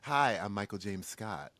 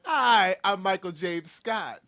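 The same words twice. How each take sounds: First: It is said in a low, raspy voice. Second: It is said in a normal voice.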